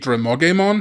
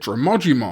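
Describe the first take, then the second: First: The vowel after the g sounds like 'eh'. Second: The vowel after the g sounds like 'ee'. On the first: This follows the name's original Japanese roots. The speaker calls it right. "the name should be Dramogemon" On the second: This is how the English dub says the name. The speaker calls it wrong. "the dub, as far as I recall, does pronounce it Dramogimon"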